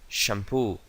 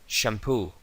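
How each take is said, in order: No difference in how they are said.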